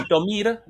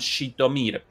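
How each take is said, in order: First: The name begins with an s sound. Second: The name begins with a sh sound.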